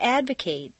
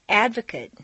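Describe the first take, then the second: First: The final syllable has a full 'ate' vowel. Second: The final syllable has a reduced vowel. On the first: It is used as a verb. "it's a full A sound" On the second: It is used as a noun or adjective. "completely reduced"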